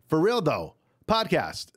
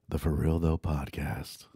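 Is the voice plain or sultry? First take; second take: plain; sultry. First: The voice is plain and ordinary. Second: The voice is low and sultry. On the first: "if I say it like that" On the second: "if I want to sound naked, I say it like this"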